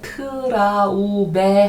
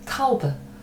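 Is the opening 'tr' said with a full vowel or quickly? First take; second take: full vowel; quick. First: A full vowel follows the opening t. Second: The opening t is only tapped quickly. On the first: The speaker calls it wrong. "트라우베 하지 마시고" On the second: The speaker calls it right. "트는 지금 한번 치고 넘어간다"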